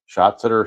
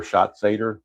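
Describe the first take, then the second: First: Schatzeder as SHOT-suh-der, middle syllable short and weak; first pronunciation option. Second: Schatzeder as SHOT-say-der, middle syllable a full "say"; second pronunciation option. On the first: Game player showing two ways to say a pitcher's name, first option. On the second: Game player showing two ways to say a pitcher's name, second option. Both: Shown as a demonstration. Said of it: "you can pronounce it either way".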